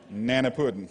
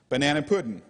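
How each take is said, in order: First: The first syllable of banana is dropped. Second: Banana is said in full, all syllables.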